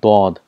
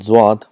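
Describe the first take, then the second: First: The letter name begins with a d sound. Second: The letter name begins with a z sound. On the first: This is the Arabic pronunciation. "but in Arabic it's called dod" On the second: This is the Urdu pronunciation. "in Urdu it's called zwad"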